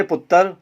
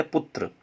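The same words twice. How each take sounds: First: पुत्र as puttar, vowel before the 'r'; mispronounced word. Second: पुत्र with a joined 'tr', putra; correct pronunciation. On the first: Teacher mimicking how people say it, पुत्र as puttar. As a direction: break up the ending of पुत्र into 'tar', louder. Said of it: "उच्चारण संबंधी अशुद्धियां". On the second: Teacher giving the pure word, पुत्र as putra. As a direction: say पुत्र with no vowel between 't' and 'r'. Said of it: "सही शुद्ध शब्द है". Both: Shown as a demonstration.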